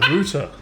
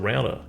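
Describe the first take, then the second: First: It is said with the British pronunciation. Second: It is said with the non-British pronunciation. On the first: "British is they say" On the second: "instead of"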